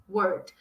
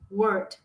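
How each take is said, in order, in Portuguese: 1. O som de L antes do D final está faltando. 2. O som de L antes do D final está faltando.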